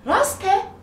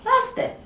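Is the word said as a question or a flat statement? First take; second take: question; flat statement. First: It has questioning intonation with pitch movement. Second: It is flat, without rising or falling pitch. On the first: It asks whether something is true. "bakınız ses tonumla orada soru sorduğumu söylüyorum" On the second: It states that something is true. "normal konuştum. Konuşurken ses tonumu indirip çıkarmadım"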